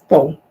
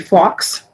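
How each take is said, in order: First: The word ends on a long o vowel. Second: The word ends in a clear x sound. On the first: The speaker calls it right. "it's just faux" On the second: The speaker calls it wrong. "Oftentimes people say fox"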